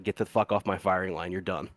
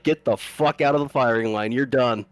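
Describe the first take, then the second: First: Retold order, low-key and trailing lower; calm dismissal. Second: Mild mock sergeant's dressing-down; retold chewing-out. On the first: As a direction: dismiss them without raising your voice. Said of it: "Like, all calm". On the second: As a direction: imitate a firm, irritated dismissal. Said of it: "gives the lieutenant a rash of shit".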